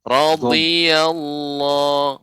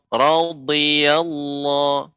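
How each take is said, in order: First: The consonant is a lateral dad sound. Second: The same.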